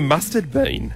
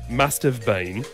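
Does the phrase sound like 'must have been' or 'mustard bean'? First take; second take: mustard bean; must have been. First: It sounds like the words mustard bean. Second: It is said as three clear words. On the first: The speaker calls it wrong. "She'd say mustard bean" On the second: The speaker calls it right. "wouldn't say must have been"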